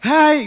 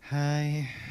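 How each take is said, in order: First: It is said louder and more energetically. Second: It is said softly and limply.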